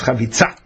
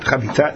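First: The consonant before the final vowel is 'ts'. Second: The consonant before the final vowel is not 'ts'. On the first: The speaker calls it right. "it's chavitza" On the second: The speaker calls it wrong. "Not chavitza"

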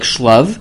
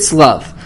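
First: The word begins with an sh sound. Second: The word begins with an s sound. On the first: This follows how the word is written. "It says it with the Shin, so you can read it like Shlav" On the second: This is how the word is traditionally read aloud. "We read it with a Sin, a Samach sound. We read it Slav"

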